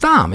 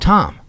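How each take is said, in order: First: The name begins with a TH sound. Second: The name begins with a plain T sound. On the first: This follows the H in the spelling. The speaker calls it right. "But it's Thom. It's right there" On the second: This is how people usually say it. The speaker calls it wrong. "people call him Tom"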